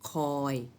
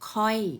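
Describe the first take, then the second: First: The syllable is said on a level mid tone. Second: The syllable is said on a falling tone. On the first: "คอยเป็นเสียงสามัญ" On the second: "รูปเอกแต่เป็นเสียงโท"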